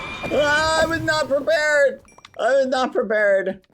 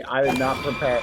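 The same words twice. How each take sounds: First: High frantic shriek; panicked yell. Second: Said in the usual way. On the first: Real, not acted. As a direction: shout it in panic. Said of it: "That scared me".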